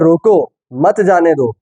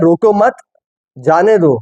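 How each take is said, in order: First: There is an exclamatory break right after 'roko'. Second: There is a break right after 'mat'. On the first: Stop them, do not let them go. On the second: Do not stop them, let them go.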